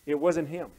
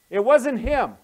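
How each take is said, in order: First: Said in the usual way. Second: "wasn't" punched high and loud, then falling; emphatic repeat. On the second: Real, not acted. Preacher correcting Samuel's mistake, emphatic and loud on "wasn't". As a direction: drive the point home loudly on "wasn't".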